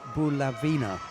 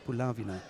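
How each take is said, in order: First: Said the English way, with firmer emphasis. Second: Said the Ukrainian way, slightly softer. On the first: "In English, we tend to say Bulavina" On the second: "in Ukraine, I think it's Bulavina. Slightly softer"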